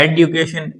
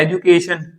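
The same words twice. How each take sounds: First: "एडुकेशन" with hard d-yoo; other country's variant. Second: "एजुकेशन" with a j sound; one country's variant. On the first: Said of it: "एक देश बोल रहा है". ("एडुकेशन" में ड्यू बोलें) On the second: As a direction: use ju, not d-yoo, in "एजुकेशन". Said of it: "एक बोल रहा है". ("एजुकेशन" में ज की आवाज़) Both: Shown as a demonstration.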